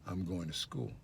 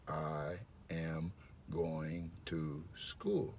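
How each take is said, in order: First: The words run together smoothly without breaks. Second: Each word is said separately and distinctly. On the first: "listen to the way it sounds" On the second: "That's five words"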